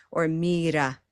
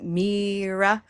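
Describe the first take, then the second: First: Mira with a tapped R; non-English R. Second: Mira with long EE and English R. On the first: Teacher offers alternative to Czech learner, tapped R. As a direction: tap the R in Mira. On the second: Teacher asks Czech learner about R, English version. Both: Shown as a demonstration. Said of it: "same R as in English".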